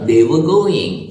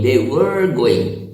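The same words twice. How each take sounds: First: The r in 'were' is silent, British style. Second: The r in 'were' is pronounced, American style. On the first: "एक British जो है वो कहेगा दे वर going, क्योंकि आर silent है" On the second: "American है, वो यदि बोलेगा तो कहेगा"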